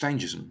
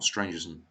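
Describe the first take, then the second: First: There is no r sound after the s-t. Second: There is an r sound after the s-t. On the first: The speaker calls it right. "it's Stangerson" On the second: The speaker calls it wrong. "not Strangerson. That's really quite annoying"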